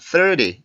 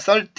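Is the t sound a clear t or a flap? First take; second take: flap; clear t. First: The t is a quick flap sound. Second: The t is a clear t sound. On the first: The speaker calls it right. "이런 식으로 발음을 하죠. T 발음 소리가 또 바뀝니다" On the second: The speaker calls it wrong. "삼십라고 발음을 하지 않고"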